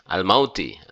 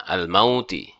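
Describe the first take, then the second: The two takes are said the same way.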